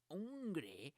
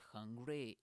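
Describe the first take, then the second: First: It is said in an imitated, exaggerated accent. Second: It is said in the speaker's own plain accent. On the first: "it's hungry" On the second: "he doesn't pronounce the, the, the word hungry"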